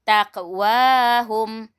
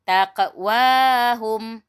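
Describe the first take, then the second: Both takes have the same delivery.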